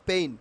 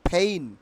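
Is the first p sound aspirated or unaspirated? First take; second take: unaspirated; aspirated. First: The first p has no puff of air. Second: The first p has a strong puff of air. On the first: The speaker calls it wrong. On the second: The speaker calls it right.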